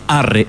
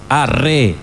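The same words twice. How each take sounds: First: The stress is on the first syllable. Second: The stress is on the last syllable. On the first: The speaker calls it wrong. "No es arre" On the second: The speaker calls it right. "La cadencia es hacia la E"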